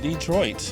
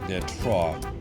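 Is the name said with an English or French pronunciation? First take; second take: English; French. First: It is pronounced the American English way. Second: It is pronounced the French way. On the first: This is how the name is said today. "nowadays we call it" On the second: This is the original name used by its founders. "as originally called by the French"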